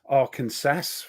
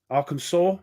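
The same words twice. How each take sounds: First: The name is said the way many Brits say it. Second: The name is said the standard way.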